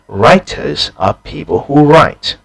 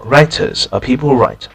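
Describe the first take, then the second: First: Every word is pronounced fully and carefully. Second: The small words are weakened and run together. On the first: The speaker calls it wrong. "it just doesn't sound very natural in English" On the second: The speaker calls it right. "a more natural version"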